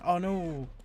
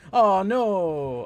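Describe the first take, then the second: First: It sounds flat and unconcerned. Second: It sounds genuinely dismayed and sincere. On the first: The speaker doesn't really care. The speaker calls it wrong. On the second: The speaker is truly sorry. The speaker calls it right.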